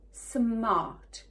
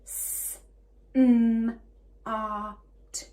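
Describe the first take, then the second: First: SMART run together as one word; blended word. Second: SMART split into s, m, ar, t; segmented phonics demo of "smart"; sounded out. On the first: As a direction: say SMART whole, falling at the end. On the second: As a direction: say S, a loud M, AR, T separately. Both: Shown as a demonstration. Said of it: "four for four sounds".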